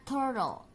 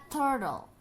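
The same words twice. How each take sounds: Both takes have the same delivery.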